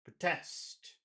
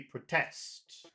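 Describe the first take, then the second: Both takes have the same delivery.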